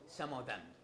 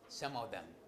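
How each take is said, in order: First: The word 'of' is unstressed and reduced. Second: The same.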